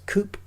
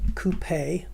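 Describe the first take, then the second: First: It is said like 'coop', final E silent. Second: It is said like the French word, final E sounded. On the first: The speaker calls it wrong. "Americans pronounce as coupe" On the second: The speaker calls it right. "which is a French word"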